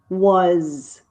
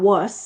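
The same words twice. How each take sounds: First: The word ends with a buzzing Z sound. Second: The word ends with a hissing S sound. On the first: The speaker calls it right. "some S's in English sound like Z" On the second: The speaker calls it wrong. "So it's not was"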